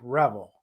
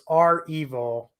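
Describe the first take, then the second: First: It is said as one word, like 'revel'. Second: It is said as the letter R plus 'evil'. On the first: The speaker calls it wrong. "not Revel like Revel" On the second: The speaker calls it right. "is our evil for ransomware evil"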